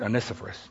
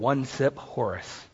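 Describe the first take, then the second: First: The name is said smoothly as one word. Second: The name is broken into separate everyday words. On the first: The speaker calls it right. "Or as we pronounce it" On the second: The speaker calls it wrong. "Good old one-sip Horace"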